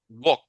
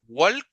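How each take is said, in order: First: The L sound is left out of the word. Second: The L sound is pronounced in the word. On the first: The speaker calls it right. "Sino es walk" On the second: The speaker calls it wrong. "no es walk"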